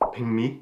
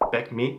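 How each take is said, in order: First: The consonant before mi becomes nasal. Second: The consonant before mi stays a stop. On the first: The sound rule is applied. The speaker calls it right. "not pingmi" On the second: The sound rule is not applied. The speaker calls it wrong. "if you pronounce this word on screen as 백미"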